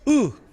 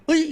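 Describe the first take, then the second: First: The vowel stays a plain eu sound. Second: The vowel glides from eu toward i.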